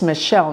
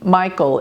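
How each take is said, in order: First: The name is said without an American pronunciation. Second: The name is said with an American pronunciation. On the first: The speaker calls it right. "actually I think it's Michel" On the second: The speaker calls it wrong. "not Michael is the American pr uh, pronunciation"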